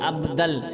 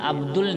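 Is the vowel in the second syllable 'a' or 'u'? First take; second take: a; u. First: The second syllable has an 'a' vowel. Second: The second syllable has a 'u' vowel. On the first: The speaker calls it right. "आपको ज़बर के साथ अब्दल कहना है" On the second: The speaker calls it wrong. "अब्दुल नहीं"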